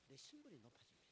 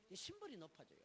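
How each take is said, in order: First: 신분이 leaned on, much softer, falling; much softer, weighty 신분이; softly stressed. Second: Said in the usual way. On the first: Shown as a demonstration. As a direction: drop to a softer voice and press 신분이.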